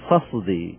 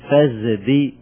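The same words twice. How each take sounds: First: The consonant before d is a clear emphatic s. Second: The consonant before d is a full z. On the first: "وعندنا بيان يعني لا إبدال ولا مضارعة نقول" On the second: "عندنا إبدال إلى زاي فنقول"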